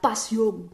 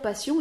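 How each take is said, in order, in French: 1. La voyelle finale est gonflée et allongée. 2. La voyelle finale est courte et plate. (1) "ils vont dire la passion. La passion, comme ça" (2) "ils vont pas dire passion"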